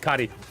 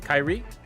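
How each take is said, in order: First: The name is said like a Japanese word. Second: The name is said the usual English way. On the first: The speaker calls it wrong. "I thought it was like Japanese. So I was saying it like that" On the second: The speaker calls it right. "Is that how you say it?"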